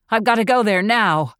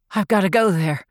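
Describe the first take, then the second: First: More insistent. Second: Said in the usual way. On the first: A narrator's reading. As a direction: press the point harder now. Archie insisting, repeats louder.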